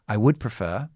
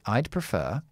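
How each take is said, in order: First: 'I would' is said as two full words. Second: 'I would' is contracted to one syllable.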